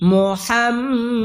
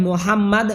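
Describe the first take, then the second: First: Higher, slow মুহাম্মাদ with long hummed m; correct ghunnah. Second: মুহাম্মাদ spoken short, no hum on the m; wrong pronunciation. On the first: Teacher correcting learners, chanted মুহাম্মাদ with long ghunnah. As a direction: hold the doubled m of মুহাম্মাদ. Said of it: "বলতে হবে". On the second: Teacher showing the mistake, short unchanted মুহাম্মাদ. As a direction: say মুহাম্মাদ quickly in a speaking tone. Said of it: "যদি বলেন মুহাম্মাদ হবে না". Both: Shown as a demonstration.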